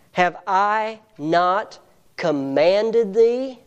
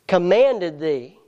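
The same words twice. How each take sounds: First: Said in the usual way. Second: Slow, with "commanded" pressed hard and drawn out; stress on commanded. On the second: Shown as a demonstration. Preacher repeating the verse, hammering "commanded". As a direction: lean on "commanded", slowly. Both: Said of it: "It's a commanded courage".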